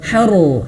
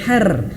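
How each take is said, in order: First: The r sound is heavy and full. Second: The r sound is light and thin. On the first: The speaker calls it right. "harus dibaca tebal" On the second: The speaker calls it wrong. "bukan har"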